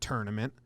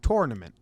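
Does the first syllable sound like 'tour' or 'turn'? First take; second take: turn; tour. First: The first syllable sounds like 'turn'. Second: The first syllable sounds like 'tour'. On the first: The speaker calls it wrong. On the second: The speaker calls it right. "It's T O U R"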